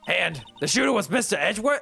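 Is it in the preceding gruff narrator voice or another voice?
gruff narrator. It is in the gruff narrator's voice.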